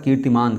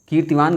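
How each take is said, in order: First: "कीर्तिमान" with an m in the last syllable; correct word form. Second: "कीर्तिवान" with a v in the last syllable; wrong word form. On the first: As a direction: say "कीर्तिमान" ending in -maan. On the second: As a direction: say "कीर्तिवान" ending in -vaan. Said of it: "का नहीं होता है". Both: Shown as a demonstration.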